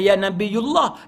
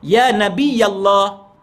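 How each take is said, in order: First: A 'u' vowel comes before Allah. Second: An 'a' vowel comes before Allah. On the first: This is the Malay way to say it. The speaker calls it wrong. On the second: This is the Arabic way to say it. The speaker calls it right. "dia kita baris atas"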